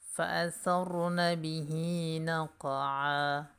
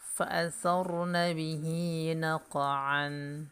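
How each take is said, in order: First: The last word ends with a long vowel. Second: The last word ends with an n sound.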